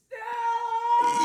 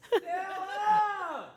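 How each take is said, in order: First: It is shouted with full intensity. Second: It is shouted with moderate intensity.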